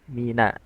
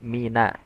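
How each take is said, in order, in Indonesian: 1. Suku kata n itu tipis dan terang. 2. Suku kata n itu tipis dan terang.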